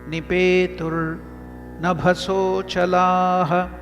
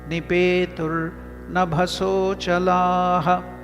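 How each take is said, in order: No difference in how they are said.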